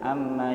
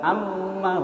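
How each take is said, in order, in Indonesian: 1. Huruf m mengalir lancar tanpa tekanan. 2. Huruf m ditekan kuat dengan penekanan berat. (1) "tidak ada penekanan di sini, mengalir saja" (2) "bukan amma, bukan begitu, ditekan"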